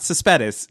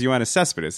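First: "Cespedes" said the American way, ces-PE-des with the stress moved to the middle; the wrong Americanized way. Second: "Yoenis Cespedes" said the Spanish way, CES-pe-des with the stress on the first syllable; correct Spanish pronunciation. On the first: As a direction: mispronounce "Cespedes" the way the dad does. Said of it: "It's not Cespedes". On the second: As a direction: say "Yoenis Cespedes" as the player says it, Spanish style. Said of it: "the guy says his name is Yoenis Cespedes". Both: Shown as a demonstration.

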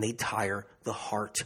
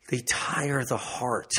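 First: Said in the usual way. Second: "tire" stretched out, each word slow; slow emphatic repeat. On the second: Real, not acted. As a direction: dwell heavily on "tire". Phrase repeated slowly for emphasis.

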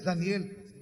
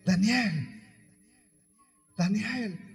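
First: Sad. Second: Said in the usual way. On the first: Acted. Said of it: "le habla tristemente". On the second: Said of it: "Pero, hermanos, dice la Biblia que le habla tristemente".

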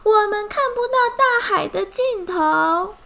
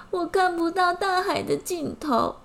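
First: High, loud wail of the line; 我们看不到大海的尽头 shouted high and loud, not whimpered; loud together. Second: High, a touch of mock tearfulness; tearful ant. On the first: Acted. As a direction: cry it out loudly at the fish. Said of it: "一起大声说". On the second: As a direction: whimper it like a sad little ant. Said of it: "蚂蚁哭着说".

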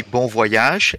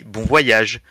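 First: Put-on British accent on "bon voyage"; terrible British accent. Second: "bon voyage" pronounced the French way; French pronunciation. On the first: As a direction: say "bon voyage" like a Brit, badly imitated. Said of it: "a terrible imitation of a British". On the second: Shown as a demonstration. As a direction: say "bon voyage" as a native French speaker would. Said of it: "and I say bon voyage".

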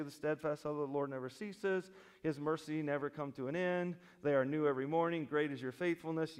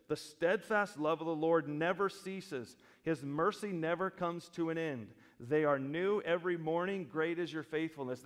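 First: Imitating a casual reader; mock coffee-mug piety; glib verse reading. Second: Deliberate, weighty reading; earnest verse with strong key words; emphatic scripture reading. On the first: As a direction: rattle the verse off lightly, without weight. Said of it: "read that verse all by itself on a coffee mug". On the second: Acted. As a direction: proclaim it firmly as a basic truth. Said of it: "He emphatically brought to mind the basic truth".

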